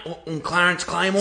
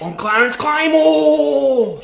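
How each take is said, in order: First: Hesitant and small, stumbling on the first word; nervous mumbled introduction; timid stammer. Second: Loud, slow and proud, every word landed; said with his chest. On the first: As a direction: say your name like you're scared to. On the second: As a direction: boom your name out with full chest. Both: Acted. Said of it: "Say it with your fucking chest".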